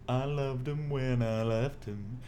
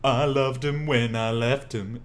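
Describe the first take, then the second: First: It is said softly in a relaxed way. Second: It is said with tense, forceful energy.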